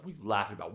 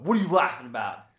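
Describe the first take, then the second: First: Said in the usual way. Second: Louder, quicker mock challenge; raised-voice retold demand, pitched up; retold confrontation. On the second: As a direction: demand it loudly, acting out the quote.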